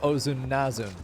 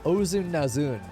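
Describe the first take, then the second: First: The last syllable is not stressed. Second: The stress falls on the last syllable.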